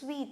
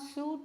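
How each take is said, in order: First: The word sounds like 'sweet', with an ee vowel. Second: The word sounds like 'suit', with an oo vowel. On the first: The speaker calls it right. "it is sweet" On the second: The speaker calls it wrong. "S U I T E is not suit"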